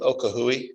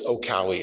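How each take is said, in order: First: An h sound comes before the last syllable. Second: No h sound comes before the last syllable. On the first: The speaker calls it wrong. "We've always called this one Okahui because it's fun to say" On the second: The speaker calls it right. "apparently it's Okawi is the proper pronunciation"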